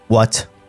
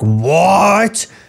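First: The word is said quietly and held back. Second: The word is shouted loudly. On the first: The anger is held in, which is scarier. The speaker calls it right. "very subdued" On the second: The anger is let out openly. The speaker calls it wrong. "If he had shouted like"

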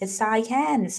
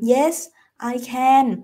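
First: The words run together in one linked stream. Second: Each word is said clearly and separately. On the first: The speaker sounds natural and casual. "ถ้าอยากฟังเป็นธรรมชาติให้ลิงก์" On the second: The speaker sounds earnest and sincere. "ใครจะตั้งใจจริงใจพูดชัดเจน"

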